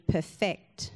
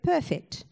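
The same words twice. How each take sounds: First: The stress is on the second syllable. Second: The stress is on the first syllable. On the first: Working towards making something flawless. "When you perfect something, you're working towards perfection" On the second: Being without flaw. "We all know what you are when you're perfect"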